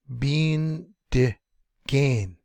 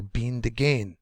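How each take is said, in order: First: "Bean de gain" broken up, "Bean" held long, "de" short; long "Bean", short "de", long "gain", with pauses; syllable by syllable. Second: "Bean to gain" joined, "to" almost swallowed; middle syllable barely there. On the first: Teacher showing short and long syllables, said piece by piece. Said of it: "Short long". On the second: Teacher showing the short syllable vanishing, "to" barely said. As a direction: skim over "to" between "Bean" and "gain". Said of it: "like it's not even there". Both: Shown as a demonstration.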